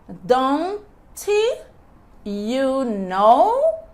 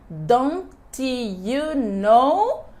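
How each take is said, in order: First: The phrase is said very slowly. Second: The phrase is said at natural speed. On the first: "bem devagar" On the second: "o som natural"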